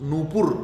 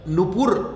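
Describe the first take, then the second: First: The first vowel is pronounced long. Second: The first vowel is pronounced short. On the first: The speaker calls it right. "न के तो बड़ा वो होगा" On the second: The speaker calls it wrong. "नहीं भाई"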